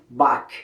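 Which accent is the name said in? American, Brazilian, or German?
American. The name is said with an American pronunciation. "dos Estados Unidos, por exemplo, eles falam Bach"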